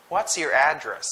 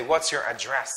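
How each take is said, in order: First: "address" stressed on AD, falling at the end; noun stress. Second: "address" wrongly stressed on DRESS, rising at the end; wrong noun stress. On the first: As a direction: ask it with AD strong in "address". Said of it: "you would say". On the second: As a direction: ask it with the weight late, on DRESS in "address". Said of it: "You don't say". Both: Shown as a demonstration.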